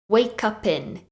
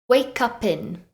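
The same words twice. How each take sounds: No difference in how they are said.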